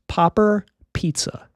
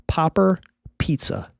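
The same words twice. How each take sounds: The two takes are said the same way.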